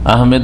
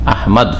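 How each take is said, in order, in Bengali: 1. দ্বিতীয় অক্ষরে 'e' স্বরধ্বনি আছে। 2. দ্বিতীয় অক্ষরে কোনো 'e' স্বরধ্বনি নেই। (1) "ইংরেজিতে লিখে কি আহমেদ লিখে, এম ই ডি, যার ফলে আহমেদ বলে, ভুল।" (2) "আহমেদ নয়, আহমদ।"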